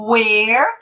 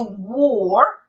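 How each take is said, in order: First: WHERE with an open e; open vowel. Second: WORE with a rounded, closed vowel. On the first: Teacher telling where from its lookalike, open WHERE. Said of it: "que é aberto". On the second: Teacher telling the lookalike from where, closed WORE. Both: Shown as a demonstration.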